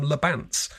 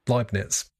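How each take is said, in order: First: The word is said like 'Le Bants'. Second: The word is said like 'Leibniz'. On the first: The speaker calls it wrong. "cannot pronounce correctly, but she calls them Le Bants" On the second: The speaker calls it right. "even though they're Leibniz"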